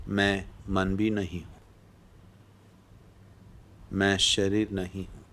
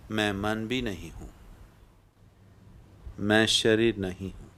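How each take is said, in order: Both takes have the same delivery.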